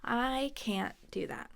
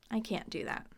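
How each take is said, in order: First: Slow, separated words, CAN'T stopped short; slow demonstration. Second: Said in the usual way. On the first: Shown as a demonstration. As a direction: spell it out word by word. Teacher demonstrates slowly.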